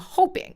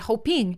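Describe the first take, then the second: First: The stress falls on the first syllable. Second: The stress falls on the final syllable. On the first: The speaker calls it right. "Like we say I'm hoping" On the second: The speaker calls it wrong. "you basically put the emphasis on ing of it"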